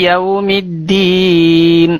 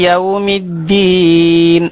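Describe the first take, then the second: The two takes are said the same way.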